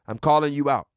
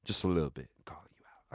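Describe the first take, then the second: First: Said in the usual way. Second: Barely audible whisper; sheepish whisper. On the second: Pretend. Host softening his call-out of a friend, whispering. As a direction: take it back under your breath.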